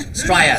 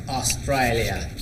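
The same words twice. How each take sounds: First: "Australia" squashed to "Straya" in Aussie style; playful Aussie "Straya", middle syllables swallowed; Australian accent. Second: Said in the usual way. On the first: Shown as a demonstration. Host jokes before the Australian greeting, Australian accent.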